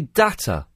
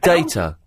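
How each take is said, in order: First: The word is said in an American accent. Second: The word is said in a British accent. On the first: "they say data" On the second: "instead of data"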